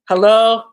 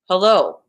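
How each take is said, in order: First: It is said with a frowning face. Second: It is said through clenched, stressed teeth.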